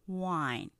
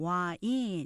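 First: The word is said in one syllable. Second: The word is said in two syllables. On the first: The speaker calls it right. "wine 이름절로 발음이 되니까" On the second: The speaker calls it wrong. "우리가 보통 와인 이렇게 평소 때 이음절로 그 발음하는 게 습관이 되셨을 거예요"

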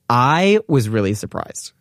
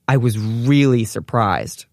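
First: The stress is on the word I. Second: The stress is on the word really.

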